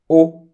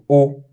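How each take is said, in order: First: The word is said on a high tone. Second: The word is said on a mid tone. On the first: "o with mi mark" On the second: "o with re mark"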